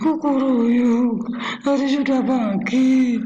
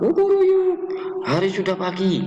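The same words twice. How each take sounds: First: It is said in a sad tone. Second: It is said in an excited, energetic tone.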